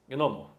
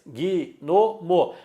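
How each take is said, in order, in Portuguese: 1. Pronuncia-se com duas sílabas, sem vogal extra. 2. Pronuncia-se com três sílabas, com uma vogal extra. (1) "mas separo em duas" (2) "Eu falo em três"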